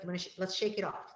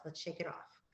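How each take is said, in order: First: Encouraging. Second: Soft coaxing. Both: Shown as a demonstration. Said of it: "we might say things like".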